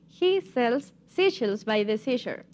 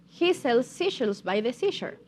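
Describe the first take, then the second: First: It is said at a slow pace. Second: It is said at a moderate pace.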